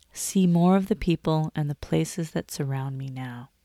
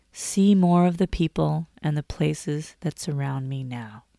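Both takes have the same delivery.

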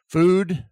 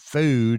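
First: The vowel is a plain, steady oo sound. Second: The vowel glides like a diphthong. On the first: "Food is the American pronunciation" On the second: "Food is the Southern diphthongy way of saying it"

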